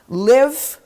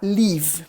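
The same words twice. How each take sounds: First: The vowel is a short i sound. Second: The vowel is a long ee sound. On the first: It means to reside somewhere. The speaker calls it right. "em vez de falar live, né, eu moro" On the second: It sounds like a different word. The speaker calls it wrong. "o brasileiro fala live. Que é outra palavra"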